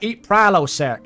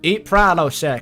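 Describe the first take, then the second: First: It is said in a Southern American cowboy accent. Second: It is said in a deeper English accent. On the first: "I'm Larry the Cable Guy" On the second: "A deeper Richard Hammond"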